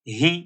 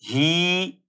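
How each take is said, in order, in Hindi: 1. स्वर छोटा i है। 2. स्वर लंबा खिंचा हुआ है। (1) "बल्कि इसको पढ़ेंगे ही" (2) "लेकिन इसको खींचेंगे नहीं। ही ऐसे भी नहीं पढ़ेंगे"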